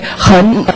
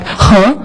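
First: The final n sound is clearly pronounced. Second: The final n sound is barely heard. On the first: "I would always say hen. Because, yeah, this is the way you got to pronounce German" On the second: "when I hear Chinese people speaking this, I always hear something like huh"

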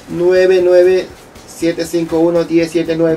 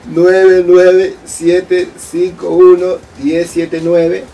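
First: The number is said at normal, quick speed. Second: The number is said more slowly.

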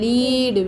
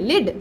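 First: The vowel is stretched out long. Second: The vowel is short and clipped. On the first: The speaker calls it wrong. "Don't stretch" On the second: The speaker calls it right.

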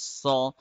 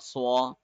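First: The word is plain with no glide. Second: The word has a w-like glide after s. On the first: The speaker calls it right. "We say saw instead" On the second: The speaker calls it wrong. "We don't say swa in English"

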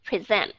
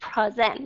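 First: The stress is on the second syllable. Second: The stress is on the first syllable. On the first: The speaker calls it right. "mà đọc là present" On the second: The speaker calls it wrong. "Bạn không đọc là present"

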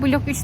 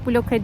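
First: The name ends with the word 'üç'. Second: The name ends with a short 'e' sound. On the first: The speaker calls it wrong. "blok 3 diye okunmuyormuş" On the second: The speaker calls it right. "bloke diye okunuyormuş"

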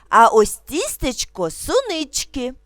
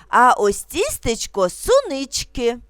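Both takes have the same delivery.

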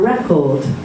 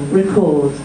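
First: The stress falls on the first syllable. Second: The stress falls on the second syllable. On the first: It is a noun: a record. "But the noun, a record, is on the first" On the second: It is a verb: to record something. "this is the verb, two syllables, stress on the second syllable"

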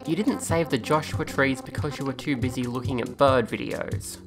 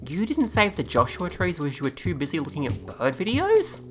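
First: The voice falls at the end like a statement. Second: The voice rises at the end like a question. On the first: It is stated as a plain fact. The speaker calls it wrong. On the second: It is asked in disbelief. The speaker calls it right.

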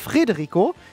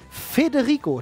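First: The name begins with 'Fre', an r after F. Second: The name begins with 'Fe', no r after F. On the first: The speaker calls it wrong. "nicht Frederico" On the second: The speaker calls it right. "Federico, nicht Frederico"

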